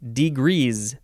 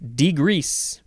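First: The word ends with a Z sound. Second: The word ends with an S sound.

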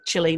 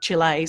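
First: The name is said the Australian way. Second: The name is said a non-Australian way. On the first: This is how Australians say the name. "as Australians we say Chile" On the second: This is how Australians do not say the name. "not Chile"

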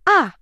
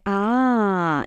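First: It sounds surprised and astonished. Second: It sounds displeased and disapproving.

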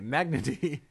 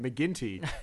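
First: The name is said as Magnity. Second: The name is said as McGinty. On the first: The name was read phonetically from the page. The speaker calls it wrong. "So I was reading it Magnity" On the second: The name is said as an Irish surname. The speaker calls it right. "in this movie was pronouncing it McGinty"

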